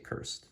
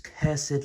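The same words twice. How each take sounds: First: The word is said in its short, plain form. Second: The word is said in its drawn-out, emphatic form. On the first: It is the ordinary everyday form. "but I just say cursed" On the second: It adds extra emphasis. "sometimes people say cursed for like extra emphasis"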